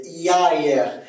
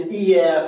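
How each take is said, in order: First: "hier" as ya-ère; Québécois diphthong. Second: Said in the usual way. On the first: Shown as a demonstration. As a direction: glide "hier" from ah into eh. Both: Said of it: "c'est A E en accent québécois".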